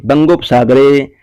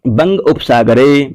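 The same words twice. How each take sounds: First: बंगोपसागरे said as one fused word; joined form. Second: Slow, with बंग and उपसागरे kept as two separate words; split apart. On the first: Teacher showing students the joined sandhi, one word. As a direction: run the parts together into बंगोपसागरे. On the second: Teacher showing students the parts, slowly separated. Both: Shown as a demonstration. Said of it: "ऐसे मिला देते हैं".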